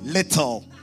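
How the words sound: It is said in a Ghanaian accent.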